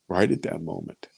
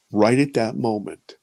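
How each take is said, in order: First: Hushed repeat. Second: Said in the usual way. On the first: Real, not acted. Recalling the moment of fear, hushed and lower. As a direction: lower and softer, sinking into the memory.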